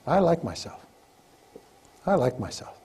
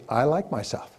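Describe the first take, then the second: First: Calm and sincere, with pauses; slow, sincere affirmation. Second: Said in the usual way. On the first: Shown as a demonstration. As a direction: let each one land, slowly. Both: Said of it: "the most powerful words you'll ever learn".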